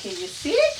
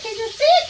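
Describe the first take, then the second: First: Said in the usual way. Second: Excited. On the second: Shown as a demonstration. Cook eagerly repeats the question to her viewers. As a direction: repeat it higher and louder, thrilled.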